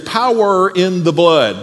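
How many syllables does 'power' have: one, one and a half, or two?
two. Power has two full syllables. "in Ohio, there's two full syllables"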